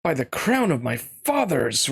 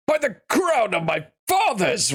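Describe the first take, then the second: First: Said in the usual way. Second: Pitched-up regal king voice. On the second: Acted. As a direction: roar it as the king. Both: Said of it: "That was supposed to be the king".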